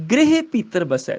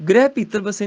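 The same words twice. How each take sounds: First: ਗ੍ਰਹਿ high, as 'grehe', ਬਸੈ open; corrected reading. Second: ਗ੍ਰਹਿ as one-syllable 'grai', ਬਸੇ with close 'e'; misreading. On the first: Teacher correcting, ਗ੍ਰਹਿ as 'grehe' with open ਬਸੈ. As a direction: say ਗ੍ਰਹਿ as 'gre-he'. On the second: Teacher showing the mistake, ਗ੍ਰਹਿ as 'grai'. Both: Shown as a demonstration. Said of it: "ਨਹੀਂ".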